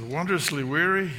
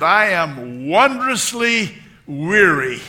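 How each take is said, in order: First: Said in the usual way. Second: Put-on slow, loud, high old-lady declaration; hammed-up imitation, drawn out; Dorothy Boyd. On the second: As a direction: stretch each word out grandly as an elderly woman. Retold elderly woman's declaration.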